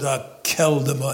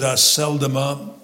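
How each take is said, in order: First: The consonant after the first vowel is a K. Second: The consonant after the first vowel is an S. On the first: The speaker calls it right. "Pronounce it a keldoma, as if it were a hard C" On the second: The speaker calls it wrong. "don't pronounce it a seldoma"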